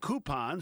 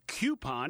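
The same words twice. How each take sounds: First: It begins with a plain 'koo' sound. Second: It begins with a 'kyoo' sound. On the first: The speaker calls it right. "There is no Q in coupon" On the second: The speaker calls it wrong. "coupon is just plain wrong"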